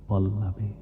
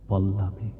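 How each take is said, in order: No difference in how they are said.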